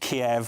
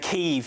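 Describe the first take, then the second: First: The name is said with an English-style pronunciation. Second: The name is said with a local-style pronunciation. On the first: The name is said plainly, as an English speaker would. The speaker calls it right. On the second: The speaker is showing off knowledge of the foreign pronunciation. The speaker calls it wrong.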